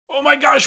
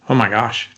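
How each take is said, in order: First: It sounds panicked and fearful. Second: It sounds calm and steady.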